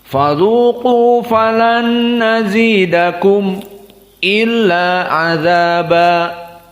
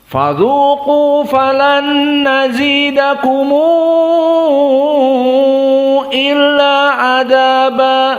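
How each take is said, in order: First: A brief break comes just before 'illa'. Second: A long vowel links the word into 'illa'. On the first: This follows the Hamzah reading tradition. "Adapun hamzah maka sakat" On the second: This follows the Warsh reading tradition. "dibaca dengan al-isba"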